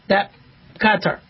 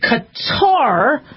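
First: Both syllables get equal stress. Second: The stress falls on the first syllable. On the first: The speaker calls it right. "So they both get equal. ... That would be how I would pronounce it" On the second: The speaker calls it wrong. "you could, I guess, emphasize the first. But we don't say Qatar"

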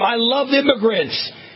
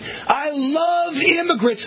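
First: It is said in a plain, calmer way. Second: It is said with more passion and energy.

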